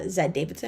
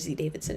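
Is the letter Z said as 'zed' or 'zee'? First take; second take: zed; zee. First: The letter is said 'zed', non-American style. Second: The letter is said 'zee', American style.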